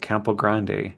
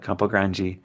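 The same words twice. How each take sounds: First: It is said with a Spanish accent. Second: It is said with a Portuguese accent.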